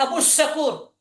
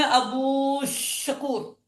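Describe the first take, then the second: First: Said in the usual way. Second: "ابو شکور" with the "و" held very long; drawn-out long vowel. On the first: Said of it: "تلفظ میں نہیں آیا". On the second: Shown as a demonstration. Teacher testing whether the waw is lengthened, "ابو شکور" with drawn-out "و". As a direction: stretch the final vowel of "ابو" slowly before "شکور". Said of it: "آپ واو مدہ پڑھتے ہیں".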